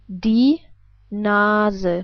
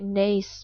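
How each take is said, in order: First: The first vowel sounds like the e in 'ten'. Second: The first vowel sounds like English 'ace'. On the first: "We would pronounce it like die Nase" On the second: "I assume you would probably pronounce this word like nace"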